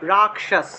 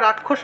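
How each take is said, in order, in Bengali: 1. মাঝের ব্যঞ্জনটি 'ক' এর পরে 'শ'। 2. মাঝের ব্যঞ্জনটি একটি মিশ্র ধ্বনি। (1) "উচ্চারণ হবে রাক্ষস" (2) "উচ্চারণটা রাক্ষস না হয়"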